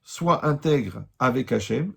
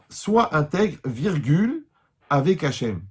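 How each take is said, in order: First: It is said as one phrase without a pause. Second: There is a break after "intègre".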